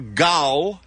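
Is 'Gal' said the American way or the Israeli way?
Israeli. The name is said with an Israeli vowel. The speaker calls it right. "It's more Gal"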